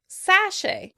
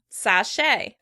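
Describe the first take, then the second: First: The stress is on the first syllable. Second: The stress is on the second syllable. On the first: "British would pronounce the word sachet" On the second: "with stress on the second syllable"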